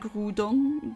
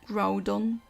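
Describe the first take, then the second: First: The name is said the French way. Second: The name is said the English way. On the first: "I've grown up saying Groudon, but that's because the French and the I think the German anime and games at times also pronounce it that way" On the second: "the English speaking people usually said Groudon"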